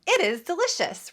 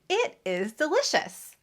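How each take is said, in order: First: Both words are reduced but still separate. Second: Both words are pronounced fully and separately. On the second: "I don't say it is delicious"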